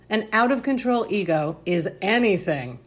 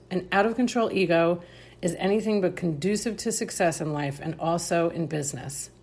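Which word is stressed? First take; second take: anything; none. First: The word anything is strongly stressed. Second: The word anything is not specially stressed.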